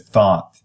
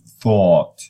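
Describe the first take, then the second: First: The vowel is an open unrounded ah. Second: The vowel is a rounded aw. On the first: "They say thought instead of" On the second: "that one is exaggerated, is more, um, is kind of, uh, uh, you know, rounded and exaggerated"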